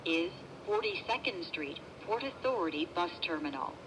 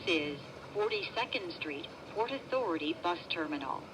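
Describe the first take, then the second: No difference in how they are said.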